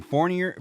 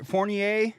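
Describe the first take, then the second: First: Anglicized "Fournier", rhyming its end with "near"; wrong pronunciation. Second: "Fournier" with a final AY, higher pitched; corrected pronunciation. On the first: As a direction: say "Fournier" English-style, ending in a plain "-yer". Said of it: "I'm not gonna say Fournier anymore". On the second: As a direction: say "Fournier" French-style, ending in "-ee-ay". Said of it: "It's Fournier". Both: Shown as a demonstration.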